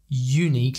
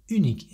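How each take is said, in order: First: It is pronounced with an English accent. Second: It is pronounced with a French accent. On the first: The speaker calls it wrong. "It's not unique like in English" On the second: The speaker calls it right. "is unique in French"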